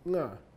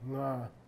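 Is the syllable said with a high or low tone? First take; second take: high; low. First: The syllable is said with a high tone. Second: The syllable is said with a low tone. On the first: "You add a head letter, it becomes high tone" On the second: "nga by itself is low tone"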